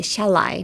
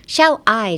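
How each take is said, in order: First: "shall I" run together as sha-LIE; linked shall I. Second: "shall I" as two separate words, SHALL then I; unlinked shall I. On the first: Teacher showing learners the right linking, "shall I" as sha-lie. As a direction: join "shall I" so the I sounds like lie. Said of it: "それだと思ってくっつけたら". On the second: Teacher showing learners what to avoid, "shall I" said apart. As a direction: split "shall I", no l carried into the I. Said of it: "shall Iじゃなくてshall Iなので". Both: Shown as a demonstration.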